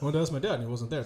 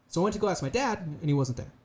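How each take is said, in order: First: It runs on without a pause before the ending. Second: There is a short pause before the ending. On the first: The speaker calls it wrong. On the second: The speaker calls it right. "It's the same energy until I stop a little bit"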